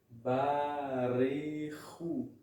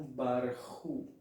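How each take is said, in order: First: A short vowel is heard between the r and ch. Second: No vowel is heard between the r and ch. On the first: The speaker calls it right. "A palavra barehu" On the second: The speaker calls it wrong. "e não barhu"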